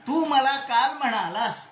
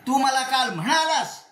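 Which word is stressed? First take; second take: म्हणालास; म्हणालास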